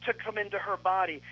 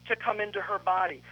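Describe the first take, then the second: No difference in how they are said.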